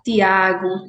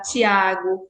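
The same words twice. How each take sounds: First: The t before i is a plain t. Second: The t before i sounds like ch. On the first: "não palatalização do T e do D" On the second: "no Sudeste é"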